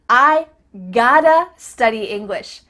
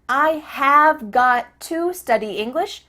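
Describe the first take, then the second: First: 'Have got to' is reduced to 'gotta'. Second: 'Have got to' is said as full words. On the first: "reduce these four common verbs" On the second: "Here we have a longer verb"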